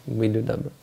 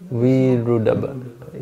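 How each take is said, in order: First: "Vidudabba" with a d in the second syllable; pronounced with a D. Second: "Virudabba" with an r in the second syllable; pronounced with an R. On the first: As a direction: say "Vidudabba" with d after Vi. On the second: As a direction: say "Virudabba" slowly, with r after Vi. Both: Shown as a demonstration. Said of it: "different ways to say his name".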